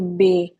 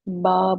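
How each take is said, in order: First: The letter name ends in an 'ay' vowel. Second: The letter name ends in an 'ah' vowel. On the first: This is the Urdu way of naming the letter. "हम उर्दू में बोलते हैं" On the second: This is the Arabic way of naming the letter. "अरबी में हम इसको बे नहीं बोलेंगे, बा बोलेंगे"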